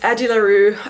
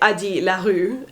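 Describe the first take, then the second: First: The name is said with English pronunciation. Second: The name is said with French pronunciation. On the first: This is how it is commonly said online. The speaker calls it wrong. "I feel really, really strange saying it like that" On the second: This matches the character's French origin. The speaker calls it right. "It really should be"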